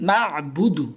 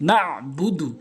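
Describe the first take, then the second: No difference in how they are said.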